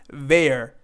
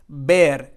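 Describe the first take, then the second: First: The syllable starts with a V sound. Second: The syllable starts with a B sound. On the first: The speaker calls it wrong. "and not ver" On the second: The speaker calls it right. "we have the V or the bass sound"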